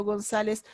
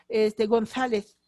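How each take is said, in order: First: González with the z said as a plain s, Gonsáles; no lisp, both z as s in González; Latin American seseo. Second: González with the z said as th, GonTHáleTH; slow González, lisping both z sounds; Castilian lisp. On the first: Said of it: "Nosotros decimos". (González con seseo, la z como s) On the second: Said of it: "Ellos dicen". (González con ceceo español, lento) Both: Shown as a demonstration.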